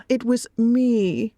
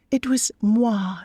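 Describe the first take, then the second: First: Said in the usual way. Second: Moi said the French way, mwa, slow and smug; playful French moi. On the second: Real, not acted. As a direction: drop a cheeky French moi.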